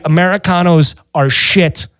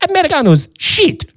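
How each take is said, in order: First: Said in the usual way. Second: High-pitched mock waiter voice; Italian waiter. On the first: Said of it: "the sad part is he was right". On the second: Waiter agreeing with the diner, high mock waiter voice. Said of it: "He goes".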